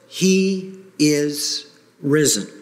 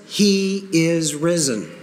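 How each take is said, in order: First: Slow, solemn proclamation; minister's call. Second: Slow, firm proclamation; proclaiming with conviction to the church. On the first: Acted. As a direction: proclaim it slowly to the congregation. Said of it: "the minister says". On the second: Shown as a demonstration. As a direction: say it like you mean it. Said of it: "say that again with conviction".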